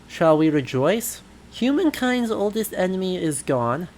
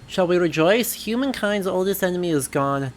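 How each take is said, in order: First: It is read at a slower pace. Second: It is read at a faster pace.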